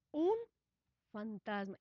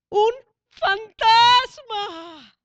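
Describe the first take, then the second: First: Softer and lower, barely saying it; hushed, stunned murmur. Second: Drawn-out, louder, higher cry; frightened shout. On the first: Disciples in the boat, frightened, murmuring quietly. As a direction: disciples murmuring a ghost under their breath. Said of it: "se turbaron". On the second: Disciples in the boat crying out at a ghost, slow frightened shout. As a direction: stretch out fantasma in a terrified yell. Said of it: "Que gritaron". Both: Acted.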